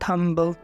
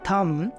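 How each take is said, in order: First: The word ends with an audible b sound. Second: The word ends on m with no b sound. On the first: The speaker calls it wrong. "ऐसे इसको नहीं बोलना है" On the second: The speaker calls it right. "इसको हम बोलते हैं"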